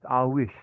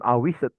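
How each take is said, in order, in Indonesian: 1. Akhirannya bunyi d yang samar, hampir tidak terdengar. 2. Akhirannya diucapkan sebagai suku kata tambahan yang terpisah. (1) "D-nya terbaca tapi dia nggak terlalu kedengeran"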